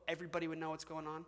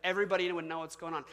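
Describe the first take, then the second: First: Everybody would know what's going on asked with a questioning rise, quick; rhetorical question. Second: Everybody would know what's going on stated firmly, falling at the end, quick; emphatic statement. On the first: Quick questioning tone. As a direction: pastor asks the congregation a quick rhetorical question. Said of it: "Like, everybody would know what's going on". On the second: Firm falling statement. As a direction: pastor answers his own question firmly to the congregation. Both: Shown as a demonstration.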